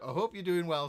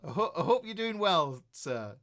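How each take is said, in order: First: Said in the usual way. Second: Real embarrassed laugh through the words; laughing apology. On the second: Real, not acted. To Al, whom he skipped in the chat, laughing sheepishly. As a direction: laugh it off while saying sorry.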